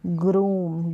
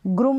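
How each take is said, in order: First: ग्रूम drawn out as "grooom"; long oo vowel. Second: First ग्रूम cut short, as "grum"; ग्रूम with a brief "u" like "put"; wrong short vowel. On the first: Teacher correcting the mistake, ग्रूम with a lengthened oo. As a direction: hold the long "oo" in ग्रूम, as in "room". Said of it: "ग्रूम नहीं ग्रूम". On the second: Teacher showing learners the mistake, ग्रूम with a short u. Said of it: "ग्रूम नहीं". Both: Shown as a demonstration.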